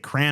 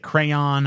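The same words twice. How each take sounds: First: The word is said with one syllable. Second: The word is said with two syllables. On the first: The speaker calls it right. "I also say crayon is a one syllable word" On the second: The speaker calls it wrong. "I don't say crayon"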